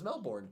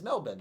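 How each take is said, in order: First: It is said with an American pronunciation. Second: It is said with an Australian pronunciation. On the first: This is how it is said in the United States. "if you're in America, the right way to say it" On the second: This is how it is said in Australia. "The right way to say it if you were in Australia"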